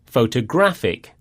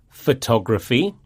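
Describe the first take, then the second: First: Photographic, GRAPH stressed, falling. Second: Photography, TOG stressed, rising. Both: Shown as a demonstration. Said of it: "the stress falls on the penultimate syllable".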